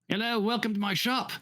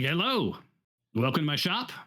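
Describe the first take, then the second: First: It is said in a female-sounding voice. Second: It is said in a male-sounding voice.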